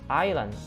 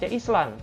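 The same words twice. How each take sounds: First: The s is silent. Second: The s is sounded as spelled. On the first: The speaker calls it right. "tapi yang benar adalah island" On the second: The speaker calls it wrong. "Bukan dibaca Island"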